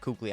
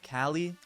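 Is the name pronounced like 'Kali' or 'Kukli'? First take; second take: Kukli; Kali. First: The name is said with a 'k' sound, 'Kukli'. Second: The name is said as two syllables, 'Kali'. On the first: This is how the speaker always says it. "I'm calling him Kukli" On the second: This is how some other people say it. "Some people say Kali"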